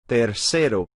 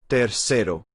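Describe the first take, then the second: The two takes are said the same way.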